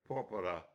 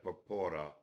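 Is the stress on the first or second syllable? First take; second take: first; second. First: The stress is on the first syllable. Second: The stress is on the second syllable. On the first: The speaker calls it right. "He corrected my pronunciation" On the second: The speaker calls it wrong. "it's probably going to belong to the penultimate syllable"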